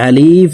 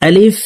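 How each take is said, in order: First: The word is said slowly and drawn out. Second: The word is said quickly and short. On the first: The speaker calls it wrong. "এভাবে টেনে পড়ে থাকি, এভাবে টেনে পড়া যাবে না।" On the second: The speaker calls it right. "আলিফ হরফকে তাড়াতাড়ি করে উচ্চারণ করব।"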